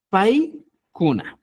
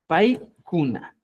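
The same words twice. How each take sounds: First: Paikuna said slowly, each syllable clear; slow model word. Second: Paikuna repeated slowly and clearly; slow teacher repeat of Paikuna. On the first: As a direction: spell out Paikuna slowly for the class. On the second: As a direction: model Paikuna again, slow and even. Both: Shown as a demonstration. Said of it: "Recuerda esto".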